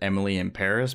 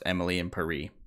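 First: Paris is said the plain English way. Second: Paris is said the French way, rhyming. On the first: The speaker calls it wrong. "how you're not supposed to pronounce it" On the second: The speaker calls it right. "Like if you were pronouncing it like a French person"

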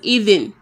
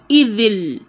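First: The word ends with an n sound. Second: The word ends with an l sound. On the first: The speaker calls it wrong. "Not just idhin" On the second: The speaker calls it right. "but idhil. You would pronounce the lam"

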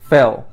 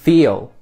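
First: The vowel is not a long E. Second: The vowel is a long E. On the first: The speaker calls it wrong. "I didn't pronounce the long E sound correctly" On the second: The speaker calls it right. "now I think I got that long E sound"

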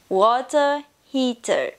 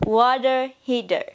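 First: It is said in a British English accent. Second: It is said in an American English accent. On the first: "in British English we say water heater" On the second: "In American English we say water heater"

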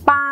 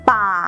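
First: The syllable is said on a level mid tone. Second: The syllable is said on a low tone. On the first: "มีพื้นเสียงเป็นเสียงสามัญ" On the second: "มีเสียงวรรณยุกต์เอก"

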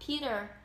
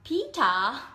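First: It is said with an American accent. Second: It is said with a British accent.

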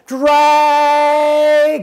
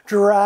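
First: The word is said as loudly as possible. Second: The word is said somewhat louder.

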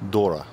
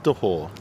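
First: The name is pronounced like 'Dora'. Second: The name is pronounced like 'Dehore'. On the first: The speaker calls it right. "It's Julianne Dora" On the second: The speaker calls it wrong. "It's not Dehore"

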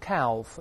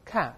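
First: The L sound is pronounced in the word. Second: The L sound is left out of the word. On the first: The speaker calls it wrong. "不要读calf" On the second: The speaker calls it right. "那个L 不发音的，再来一遍calf"

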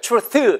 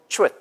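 First: It is said as two flat, separate syllables. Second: It is said with the sounds slightly pulled together. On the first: The speaker calls it wrong. "출스 이게 아니고" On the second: The speaker calls it right. "살짝 당겨야지"

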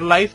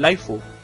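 First: It is one syllable ending in an f sound. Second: It is two syllables ending in a fu sound. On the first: "en vez de decir life" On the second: "dicen laifu"

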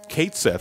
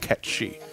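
First: The name sounds like 'Kate Sith'. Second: The name sounds like 'Ketchy'. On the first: The speaker calls it wrong. "that's what I thought it used to be pronounced" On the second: The speaker calls it right. "the actual pronunciation of the name"

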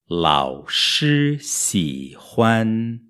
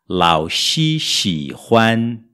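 First: The two sibilant sounds are clearly different. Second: Both sibilants sound like Portuguese x. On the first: The speaker calls it right. "o professor gosta" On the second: The speaker calls it wrong. "a pronúncia típica do brasileiro"

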